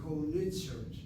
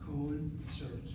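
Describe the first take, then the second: First: The first syllable ends in an open vowel. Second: The first syllable is closed by the n. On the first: "that O sound should be an open syllable. It should be ko-nitzert" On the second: "They'll blend the nun with the O"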